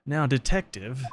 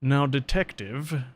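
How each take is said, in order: First: Lightly British judge; a touch of British accent. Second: Put-on British accent. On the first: Acted. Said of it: "I think he is British". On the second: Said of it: "now I became British".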